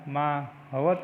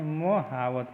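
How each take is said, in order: First: महावत slowly as "maa... havat"; long maa, short ha in महावत; wrong pronunciation. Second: मोहावत as "mo-haa-vat"; short first beat, long haa in मोहावत; correct pronunciation. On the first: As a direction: stretch the first syllable of महावत as maa. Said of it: "नहीं". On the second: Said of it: "होता है". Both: Shown as a demonstration.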